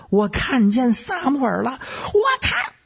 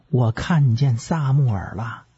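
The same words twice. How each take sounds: First: Very high-pitched frenzied screech; sudden piercing high cry; shrill shriek. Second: Said in the usual way. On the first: Acted. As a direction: shriek it like a medium seeing a ghost. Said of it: "再加上嗷的这么一声尖叫".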